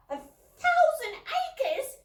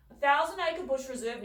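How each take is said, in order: First: Very high, slow squeal of delight; delighted squeak. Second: Said in the usual way. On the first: A narrator's reading. Little sister squeaking at the thousand acres, very high and slow. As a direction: squeak it in disbelief. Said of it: "squeaked Rubella, delighted".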